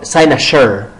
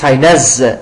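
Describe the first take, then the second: First: It is said with an American accent. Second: It is said with a British accent. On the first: "American accent it is" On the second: "In British accent it is"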